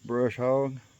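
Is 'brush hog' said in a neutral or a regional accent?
neutral. It is said in a neutral accent.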